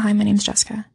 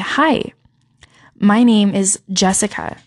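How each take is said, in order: First: It is said quickly and quietly, offhand. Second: It is said slowly, loudly and clearly. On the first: The speaker does not expect to be remembered. The speaker calls it wrong. "they're kind of like, oh, you know" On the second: The speaker is someone worth remembering. The speaker calls it right. "And you say it louder. You say it slower"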